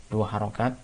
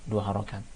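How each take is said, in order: Both takes have the same delivery.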